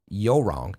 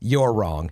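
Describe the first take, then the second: First: You're is reduced to a short yo sound. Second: You're is said in full with its r. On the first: "I just like to say it that way" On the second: "Not yo wrong. You're wrong"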